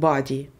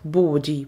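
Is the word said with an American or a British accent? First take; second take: American; British. First: It is said with an American accent. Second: It is said with a British accent. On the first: "американизм body" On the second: "Британский вариант body произносится"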